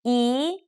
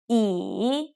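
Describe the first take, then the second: First: The pitch rises from middle to high. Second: The pitch dips down and then rises.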